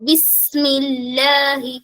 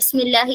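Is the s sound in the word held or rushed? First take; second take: held; rushed. First: The word is said slowly, the s held. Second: The word is said quickly, the s rushed. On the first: The speaker calls it right. "കുറച്ച് ടൈം കൊടുത്തിട്ട്" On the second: The speaker calls it wrong. "പെട്ടെന്ന് എടുത്തോതാ"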